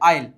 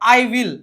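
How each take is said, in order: First: The words are merged into one short syllable. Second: Both words are said fully and separately.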